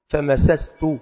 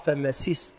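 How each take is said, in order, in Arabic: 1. الحركة بعد السين الأولى هي 'a'. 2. الحركة بعد السين الأولى هي 'i'. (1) "وقيل بفتحها" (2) "والأفصح"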